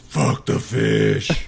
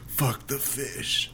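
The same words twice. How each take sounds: First: It is said in a put-on Batman voice. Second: It is said in the speaker's normal voice.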